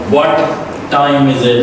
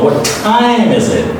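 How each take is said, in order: First: The vowel in time is clipped and weak. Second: The vowel in time is wide open and long. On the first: The speaker calls it wrong. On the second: The speaker calls it right. "You open your mouth more and more and you push all your energy to pronounce this long I well sound"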